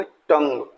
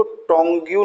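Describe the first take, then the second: First: टंग said as one short syllable, tung; correct pronunciation. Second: टोंग्यू said as tong-you, the wrong way; wrong pronunciation. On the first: Teacher giving students the right टंग. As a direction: say टंग as tung, no you sound. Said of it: "इसको बोलेंगे टंग". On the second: Teacher showing students the wrong टोंग्यू. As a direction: sound out टोंग्यू as tong-you to show the mistake. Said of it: "टोंग्यू नहीं बोलना है". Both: Shown as a demonstration.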